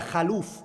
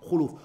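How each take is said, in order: First: The first vowel is an 'a' sound. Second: The first vowel is a 'u' sound. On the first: The speaker calls it wrong. "They read it as a fatha on the khaf, and that's an incorrect pronunciation of it" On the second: The speaker calls it right. "it is not with a fatha on the kha, but it's what? Khuluf"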